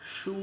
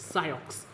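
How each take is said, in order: First: It is said as one syllable, shoo. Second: It is said as two syllables, sigh-ox. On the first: The speaker calls it right. "इस word का भाई pronunciation है शू" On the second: The speaker calls it wrong. "कुछ लोग इसे बहुत गलत pronounce करते हैं"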